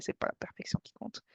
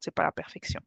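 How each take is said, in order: First: Breathy whisper to close the point. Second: Said in the usual way. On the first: Real, not acted. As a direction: whisper the motto like a secret. Repeats her motto, quieter each time.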